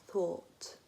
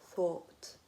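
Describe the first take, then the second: Both takes have the same delivery.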